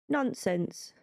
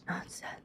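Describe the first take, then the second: First: It is said in a plain normal voice. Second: It is said in a creepy whispery voice.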